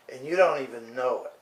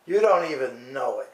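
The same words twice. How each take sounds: First: Said in the usual way. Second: Repeated louder for emphasis. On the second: Shown as a demonstration. Scolding the TV host, repeating it louder. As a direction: hit it harder the second time.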